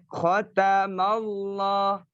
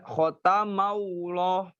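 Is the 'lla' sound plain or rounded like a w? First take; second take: plain; rounded. First: The lam is thick without any w-like sound. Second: The lam is rounded with a w-like sound. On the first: The speaker calls it right. "Tapi khotamallah" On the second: The speaker calls it wrong. "Tidak khotamallah"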